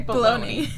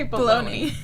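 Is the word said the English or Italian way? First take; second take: English; English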